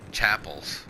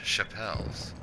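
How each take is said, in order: First: The word begins with a 'ch' sound. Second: The word begins with a 'sh' sound. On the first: This is how the locals say the name. The speaker calls it wrong. "everyone calls chapels" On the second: This is how the name is said where the speaker comes from. The speaker calls it right. "C H A, is sha"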